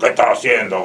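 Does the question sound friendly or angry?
angry. The question is asked in a harsh, angry tone. The speaker is scolding or threatening. "Con cara de ogro"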